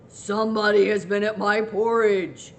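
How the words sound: It is said in a great, rough, gruff voice.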